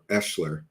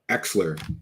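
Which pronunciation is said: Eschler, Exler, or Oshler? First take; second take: Eschler; Exler. First: It starts with an 'e' and has 'sh'. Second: It starts with an 'e' and has 'ks'. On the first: The speaker calls it wrong. "or Eschler" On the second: The speaker calls it right. "that's how you say it"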